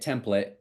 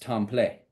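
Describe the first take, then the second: First: The stress is on the first syllable. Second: The stress is on the last syllable. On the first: The speaker calls it wrong. "you can't say it template" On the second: The speaker calls it right. "they're from the South, so ... It's Tom Play"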